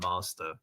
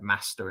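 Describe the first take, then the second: First: It is said with a southern English accent. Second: It is said with a northern English accent.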